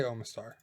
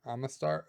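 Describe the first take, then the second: First: Omastar as "OH-ma-star"; preferred pronunciation. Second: Omastar as "AH-ma-star"; alternative pronunciation. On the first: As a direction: open Omastar on a long "oh" vowel. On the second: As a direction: open Omastar on a short "ah" vowel. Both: Shown as a demonstration. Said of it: "I say Omastar".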